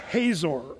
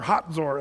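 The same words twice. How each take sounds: First: The name is said the English way. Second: The name is said the Israeli way.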